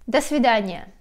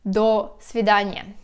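First: The two words run together without a break. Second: The two words are separated by a break. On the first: The speaker calls it right. "pronounced all together" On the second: The speaker calls it wrong. "Don't pronounce it"

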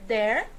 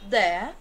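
First: It is said in an American English accent. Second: It is said in a British English accent. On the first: "no inglês americano" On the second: "No inglês britânico, nós iríamos dizer"

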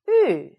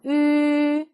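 First: The pitch falls sharply and quickly. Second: The pitch stays high and level. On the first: "사성" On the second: "일성"

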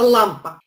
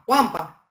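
First: The first sound is a clear L. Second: The first sound is a V, not L. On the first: The speaker calls it right. "вместо «лампа»" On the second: The speaker calls it wrong. "звук «л» подменяется на звук «в»"

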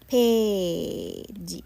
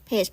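First: It is said as Japanese 'pēji' with final vowel. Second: It is said as one English syllable. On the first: "ภาษาญี่ปุ่นออกเสียงจะเป็น" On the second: "ภาษาอังกฤษ"

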